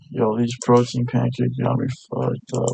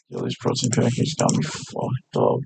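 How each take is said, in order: First: Said in the usual way. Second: Half-whispered. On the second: Real, not acted.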